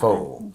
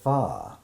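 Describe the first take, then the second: First: The word sounds like 'foe'. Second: The word does not sound like 'foe'. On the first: The speaker calls it wrong. "everybody pronounces it faux" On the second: The speaker calls it right. "you've been pronouncing it wrong"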